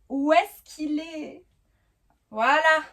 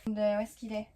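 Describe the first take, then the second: First: Drawn-out, higher musing while looking; slow, higher wondering aloud; slow searching. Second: Said in the usual way. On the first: Real, not acted. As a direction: stretch it out slowly as you hunt. Searching for her top.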